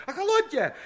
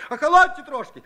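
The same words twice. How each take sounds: First: Even higher but softer, pleading; softer high plea. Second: Much higher, louder pleading yell; insistent shout. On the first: Frightened Shchukar begs the women again, high and softer. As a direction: repeat охолоньте high and quieter. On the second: Frightened Shchukar shouts at the angry women, loud plea. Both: Acted. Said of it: "упорно выкрикивал".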